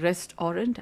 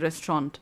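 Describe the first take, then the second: First: The word is split into rest and orant. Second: The word is said the ordinary, smooth way. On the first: A place where one rests and is made gold. "I'm saying restaurant, as in you rest" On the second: An ordinary place to eat. "I'm not saying restaurant"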